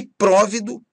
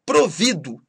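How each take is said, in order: First: PRÓVIDO stressed on the first syllable, open ó; tônica no PRÓ. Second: PROVIDO stressed on VI, closed o; tônica no VI. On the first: (próvido com tônica na primeira sílaba) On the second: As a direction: say Provido with the weight on VI. (Provido com tônica na penúltima) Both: Shown as a demonstration. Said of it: "mudam de sentido conforme a pronúncia".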